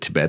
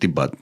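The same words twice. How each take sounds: First: The word is said with an American pronunciation. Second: The word is said with a Nepali pronunciation. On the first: "like the, the American pronunciation" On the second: "as a Nepali, uh, we grew up saying Tibet"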